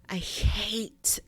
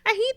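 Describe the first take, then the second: First: It is said in a strong, passionate, intense tone. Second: It is said in a light, perky, cheerful tone. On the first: The speaker calls it right. "they put so much passion into that word" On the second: The speaker calls it wrong. "They don't say it chipper. They don't say it perky like"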